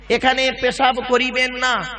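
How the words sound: The pause comes after 'না'.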